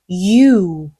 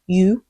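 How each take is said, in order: First: The vowel is drawn out long. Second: The vowel is short and clipped. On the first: The speaker calls it right. "you 늘려주시면 되겠어요" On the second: The speaker calls it wrong. "한 번 you가 아니라"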